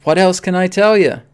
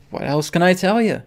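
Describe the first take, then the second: First: Insisting, raise the volume; louder exasperated repeat. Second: Said in the usual way. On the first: Real, not acted. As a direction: push the second ask out louder.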